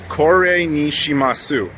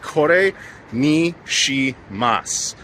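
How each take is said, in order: First: The final u of shimasu is clearly pronounced. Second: The final u of shimasu is dropped. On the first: The speaker calls it wrong. "I got the pronunciation wrong" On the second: The speaker calls it right. "You don't say the oo at the end"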